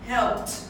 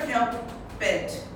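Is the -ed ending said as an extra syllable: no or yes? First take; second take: no; yes. First: The ending is a short t sound, no syllable. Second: The ending is said as an extra syllable. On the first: The speaker calls it right. "The ending sound" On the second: The speaker calls it wrong. "Never help it"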